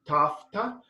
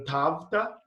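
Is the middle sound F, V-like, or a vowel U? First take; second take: F; V-like. First: The middle consonant is an F sound. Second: The middle sound falls between B and V. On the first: This is the modern Greek pronunciation. "in modern, it would be tafta with like a F" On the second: This is the restored Koine pronunciation. "in between a B and a V"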